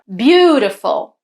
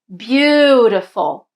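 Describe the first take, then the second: First: The stressed syllable has normal length. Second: The stressed syllable is drawn out long.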